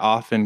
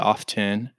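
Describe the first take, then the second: First: The T sound is silent. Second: The T sound is pronounced. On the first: "sometimes people drop off the T" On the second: "with that T"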